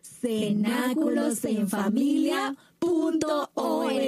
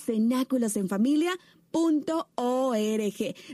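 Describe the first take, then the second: First: It is said slowly. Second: It is said at normal speed.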